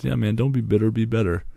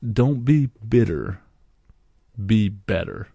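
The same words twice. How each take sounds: First: Said in the usual way. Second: Slower, punched second take of the advice; slow emphatic repeat. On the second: Retold or imitated. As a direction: drive home "bitter" and "better" like a motto. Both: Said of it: "he says".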